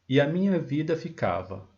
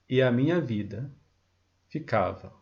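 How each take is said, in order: First: The line is said without a pause. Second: The line is said with a pause inside.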